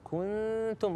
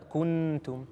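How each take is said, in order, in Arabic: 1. النون مخفاة، ولا يبقى منها إلا غنة في الخيشوم. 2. النون تُنطق كاملة بطرف اللسان. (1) "نروح عند الحرف نفسه، كنتم، رحنا عند التاء" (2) "يقول هذا كله خطا، هذه نون مظهره"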